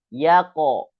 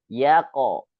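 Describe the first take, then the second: Both takes have the same delivery.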